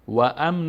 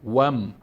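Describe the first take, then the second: First: An extra a vowel separates w from m. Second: The w sound joins directly onto the m. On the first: The speaker calls it wrong. "و ام نمیخونیم" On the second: The speaker calls it right. "واو با میم وصل میکنیم و میچسبانیم"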